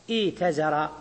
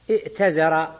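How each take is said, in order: First: ايتزر as iitazara, long ii, no glottal stop; hamza turned ya. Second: ائتزر as i'tazara, glottal stop before t; original with hamza. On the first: Teacher applies the rule, ايتزر with long ii. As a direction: glide through a long i in ايتزر to a single ta. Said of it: "ثم حصل القلب على القاعدة". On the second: Teacher gives the original word, ائتزر with audible hamza. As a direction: catch a still hamza in ائتزر before a single ta. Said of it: "وبعد همزة". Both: Shown as a demonstration.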